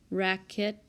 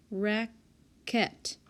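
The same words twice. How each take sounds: First: Said in the usual way. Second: "Racket" drawn out as rac, then ket; syllable by syllable. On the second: Shown as a demonstration. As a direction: break "Racket" in two with a clear gap. Sounds out word to find syllable.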